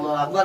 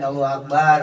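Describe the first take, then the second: First: The vowel in the last syllable is kept short. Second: The vowel in the last syllable is drawn out long. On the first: It means God is the greatest. "Allah Maha Besar" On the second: It means a small drum. "baknya dipanjangin"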